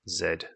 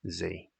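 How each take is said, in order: First: The letter is said the British way, zed. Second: The letter is said the American way, zee.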